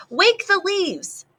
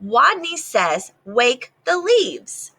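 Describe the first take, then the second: First: High, slow, bolder lisping call; stronger command. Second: Repeated command. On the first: Small rat calling bolder to his players, high and slow. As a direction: call it out with new courage. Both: Acted. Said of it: "Wadney's voice was stronger".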